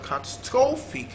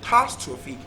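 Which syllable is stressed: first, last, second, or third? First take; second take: third; second. First: The stress is on the third syllable. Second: The stress is on the second syllable. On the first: "third syllable" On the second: "second syllable"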